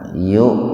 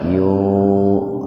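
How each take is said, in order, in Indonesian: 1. Vokalnya dipotong mendadak. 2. Vokalnya dipanjangkan. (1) "tapi dihentakkan" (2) "enggak dibaca yuk, enggak begitu"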